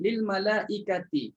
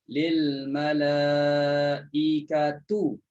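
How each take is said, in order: First: The final vowel is an i sound. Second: The final vowel is a u sound. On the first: "Kena baca dengan baris di bawah" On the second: "Abu Ja'far baca dengan baris depan"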